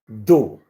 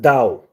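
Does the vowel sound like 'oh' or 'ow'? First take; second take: oh; ow. First: The vowel sounds like 'oh'. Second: The vowel sounds like 'ow'. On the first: The speaker calls it right. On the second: The speaker calls it wrong.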